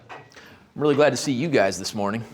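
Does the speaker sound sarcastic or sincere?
sarcastic. The greeting sounds flat and sarcastic. The speaker is not glad to see them.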